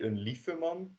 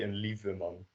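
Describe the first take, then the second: First: The middle consonant is a voiceless f sound. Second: The middle consonant is a voiced v sound. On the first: The speaker calls it wrong. "We don't say" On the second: The speaker calls it right. "we say een lieve man with a V"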